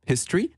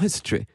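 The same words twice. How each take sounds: First: The word ends with an 'ee' vowel. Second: The word ends with an 'eh' vowel. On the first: This is how ordinary English people say it. "avec un son I à la fin" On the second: This is how the queen says it. "Elle le prononce avec un E et non pas avec un I"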